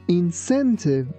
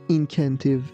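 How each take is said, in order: First: The c sounds like s. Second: The c sounds like k. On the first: The speaker calls it right. "we say incentive" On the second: The speaker calls it wrong. "We don't say incentive"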